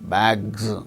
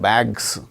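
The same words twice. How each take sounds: First: The word ends with a buzzing z sound. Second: The word ends with a hissing s sound. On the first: The speaker calls it right. "It is a voiced sound" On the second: The speaker calls it wrong.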